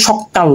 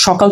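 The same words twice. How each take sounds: First: Second সকাল said sokkal, with double k; doubled consonant. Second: Said in the usual way. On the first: Shown as a demonstration. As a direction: hold the k in সকাল twice as long. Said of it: "কয়ের দুইবার উচ্চারণ হচ্ছে". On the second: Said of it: "দ্বিত্ব উচ্চারণ হচ্ছে".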